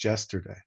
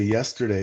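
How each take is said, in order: First: The word begins with a j sound. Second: The word begins with a y sound.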